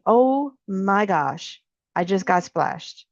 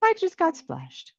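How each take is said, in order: First: Very slow, letting the moment land; slow, mindful acknowledgement of the splash; staying with it. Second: Flustered. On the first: Shown as a demonstration. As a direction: stretch out "Oh my gosh" and stay with the feeling. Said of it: "staying with that". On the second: Acted. Hasty reaction before staying with it.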